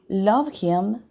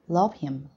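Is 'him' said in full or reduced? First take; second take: full; reduced. First: The word 'him' is said in full. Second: The word 'him' is reduced and weakened. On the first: "Love him becomes" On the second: "becomes love him"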